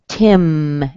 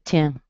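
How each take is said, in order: First: The final m sound is clearly pronounced. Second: The final m sound is dropped. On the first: The speaker calls it right. "you say Tim" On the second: The speaker calls it wrong. "instead of Tim"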